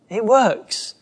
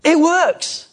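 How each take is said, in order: First: Said in the usual way. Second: High, loud burst of delight; excited discovery. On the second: Retold or imitated. Disciples returning amazed to Jesus, excited high cry. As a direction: shout it like a thrilled disciple. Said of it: "They came back and went".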